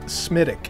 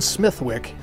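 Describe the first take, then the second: First: The name is said the local Irish way. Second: The name is said the way it is spelled. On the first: The speaker calls it right. "they pronounce it Smithwick" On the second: The speaker calls it wrong. "Although spelled Smithwick"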